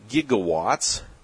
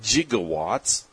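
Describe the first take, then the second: First: The word begins with a hard g sound. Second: The word begins with a soft j sound. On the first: The speaker calls it right. "which I believe is gigawatts" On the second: The speaker calls it wrong. "not gigawatts. That's how the guy in Back to the Future said it"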